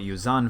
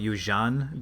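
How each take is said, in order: First: The middle consonant is a plain 'z' sound. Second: The middle consonant is a 'zh' sound. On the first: "Some people call it Yuzan Vong" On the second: "I used to call it Yuzhan because Z H in Chinese makes the zh sound"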